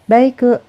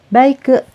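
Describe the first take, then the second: Both takes have the same delivery.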